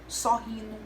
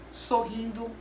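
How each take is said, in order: First: The word's ending is reduced and unclear. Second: The word's ending is pronounced fully and clearly. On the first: The speaker calls it wrong. "ela não se atenta a falar corretamente" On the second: The speaker calls it right. "a palavra certa é"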